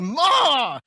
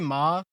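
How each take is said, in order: First: The word is yelled out loudly. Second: The word is said calmly and plainly. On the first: It calls out to mom to bring food. "it means I'm yelling at my mom to bring me food" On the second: It simply refers to mom. "it means like that's that's my mom"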